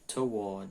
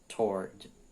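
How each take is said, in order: First: It is said with a British accent. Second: It is said with an American accent. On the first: "No inglês britânico" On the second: "no inglês americano é toward"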